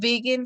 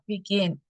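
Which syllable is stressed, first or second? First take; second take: first; second. First: The stress is on the first syllable. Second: The stress is on the second syllable. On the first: The speaker calls it wrong. "No digo begin" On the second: The speaker calls it right. "mi stress está en la última sílaba"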